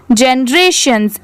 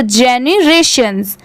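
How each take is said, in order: First: "जनरेशंस" said JEN-RAY-shuns, middle vowel dropped; merged pronunciation. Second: "जेनरेशंस" built as JE-ni-RAY-shuns; joined syllables. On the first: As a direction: run "जनरेशंस" together as jen-rayshuns. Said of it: "इसकी pronunciation यहाँ पे है". ("जनरेशंस" को जेन-रेशंस बोलना) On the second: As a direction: join jeni and rayshuns in "जेनरेशंस". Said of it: "पूरा मिला देंगे तो". ("जेनरेशंस" को जेनी-रेशंस जोड़कर बोलना) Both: Shown as a demonstration.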